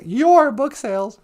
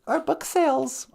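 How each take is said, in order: First: YOUR punched louder; stress on YOUR. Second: Said in the usual way. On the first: Real, not acted. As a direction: correct it by hitting YOUR. Corrects "our" to "your.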